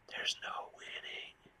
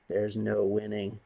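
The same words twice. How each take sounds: First: Breathy whisper, slow. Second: Said in the usual way. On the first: Real, not acted. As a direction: let it out as a defeated whisper. Repeated resigned line.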